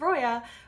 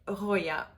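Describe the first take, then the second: First: It has an English R at the front. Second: It has a French R from the throat. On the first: "in English is" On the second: "but in French is"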